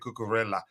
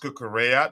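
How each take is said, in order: First: The double L sounds like an L. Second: The double L sounds like a Y. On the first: The speaker calls it wrong. "I used to say" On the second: The speaker calls it right. "taught how to pronounce"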